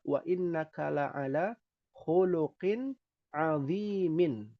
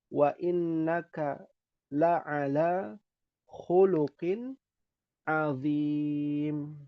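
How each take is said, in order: First: The last word ends with its full vowel ending. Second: The last word ends without its vowel ending.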